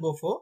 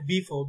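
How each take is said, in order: First: The first vowel sounds like 'oh'. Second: The first vowel sounds like 'ee'. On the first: This form is only a memory aid. The speaker calls it wrong. "মনে রাখার জন্য বলতে পারেন বোফো" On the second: This is how the name is pronounced. The speaker calls it right. "But এটার উচ্চারণ হচ্ছে বিফো"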